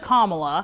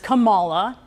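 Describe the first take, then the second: First: The name is said in its standard way. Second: The name is said in an altered, nonstandard way. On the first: This is how the name is properly said. The speaker calls it right. "instead of Kamala" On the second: This is how the opponent says the name. The speaker calls it wrong. "he says Kamala"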